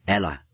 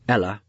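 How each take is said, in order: First: "Ella" said carefully, guarded and even; "Ella" held back, cautious. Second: "Ella" said blunt and firm, no tenderness; "Ella" as a curt rebuke. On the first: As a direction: say "Ella" gently but with no regret. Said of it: "with care not to sound any regret". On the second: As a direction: call "Ella" as a flat demand to stop. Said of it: "no tender entreaty, a blunt call". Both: A narrator's reading.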